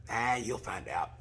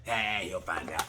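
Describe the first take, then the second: First: Slow, lazy mock marshal voice; mock careless marshal. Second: Slow, low mock marshal voice; mock careless marshal, lower. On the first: Imitating marshal brushing off the rider, slow and careless. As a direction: shrug it off slowly, teasing. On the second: Imitating marshal again, lower and slower. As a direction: drop it lower, lazier, teasing. Same marshal line repeated.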